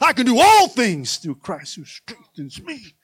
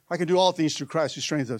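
First: It is said with believing power. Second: It is said plainly, without inner belief.

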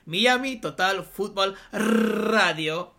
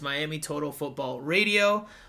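First: It is said with a Spanish accent, rolled R's. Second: It is said with an English accent.

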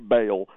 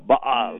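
First: It is said smoothly, without any throat stop. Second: It has a throaty, coughing stop in it. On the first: "it's hard to say, so we just say Baal" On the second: "there's a guttural stop in there, too, ... where it kind of comes from your throat"

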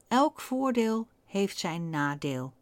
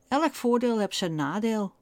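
First: It is said in a neutral standard accent. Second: It is said in an Amsterdam accent.

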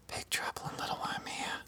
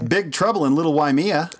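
First: It is said more quietly. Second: It is said at normal, louder volume.

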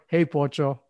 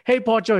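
First: It is said in a cold, hostile tone. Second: It is said in a warm, friendly tone. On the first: The word is meant as an insult. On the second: The word is meant kindly.

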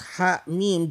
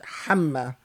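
First: It is said as two separate letter names. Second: It is said as one single short word. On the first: It names the two letters of the alphabet. "instead of it being read as ha mim" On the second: It serves as a reminder and exhortation to action. "it should be read hamma"

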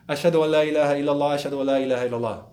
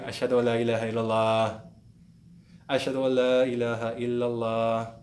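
First: Both phrases are said in one breath. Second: A breath separates the two repeated phrases.

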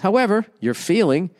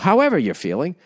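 First: There is a pause after 'however'. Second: The phrase runs on with no pause. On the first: "If you pause" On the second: "as opposed to"

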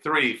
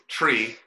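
First: The word begins with a th sound. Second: The word begins with a plain t sound. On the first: The speaker calls it right. "I'm just going to say three from now on" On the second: The speaker calls it wrong. "he would say"

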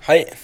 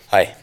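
First: The greeting is said in a light, higher voice. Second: The greeting is said in a deeper, darker voice. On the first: "jeg er glad jeg startet litt lyst" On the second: "litt mørkere stemme når jeg sa hei"

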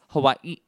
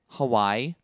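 First: Hawaii is said with the native pronunciation. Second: Hawaii is said with the anglicized pronunciation. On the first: This is the respectful way to say it. The speaker calls it right. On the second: This is how the song says it. The speaker calls it wrong.

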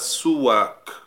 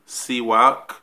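First: The first vowel is a u sound. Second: The first vowel is an i sound. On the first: "we can also pronounce it as a suwak with dhamma on the scene" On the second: "we could pronounce it as a siwak with kasra on the scene"

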